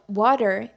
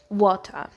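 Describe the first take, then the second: First: The word is said in an American accent. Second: The word is said in a British accent. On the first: "it's used in the American accent" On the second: "in the British accent, people say water"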